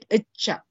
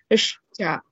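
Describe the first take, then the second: First: No sh sound comes before cha. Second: A clear sh sound comes before cha. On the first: The speaker calls it wrong. "rather than icha" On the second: The speaker calls it right. "The sound should be ish cha"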